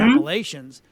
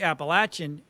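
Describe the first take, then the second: First: It is said the outsider, non-local way. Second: It is said the local Appalachian way.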